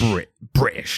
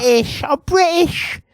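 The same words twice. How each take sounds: First: Slow, drawn-out British; stressed British. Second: Very high shouted British; shrieked British. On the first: Co-host showing how the show says British, slow stress. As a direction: lean on British slowly. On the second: Co-host parodying the accent, squealing British very high. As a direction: squeal British up at the top of your voice. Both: Shown as a demonstration. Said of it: "like that".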